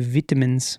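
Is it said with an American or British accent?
British. It is said with a British accent.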